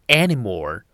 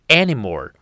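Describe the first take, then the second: The two takes are said the same way.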